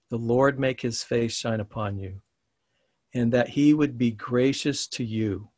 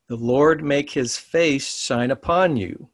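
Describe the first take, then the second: First: Said in the usual way. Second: Slow, measured reading with upon drawn out at the end; reading the blessing slowly to the students. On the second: Shown as a demonstration. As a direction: lay the blessing down word by word. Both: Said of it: "I'm gonna read it slow".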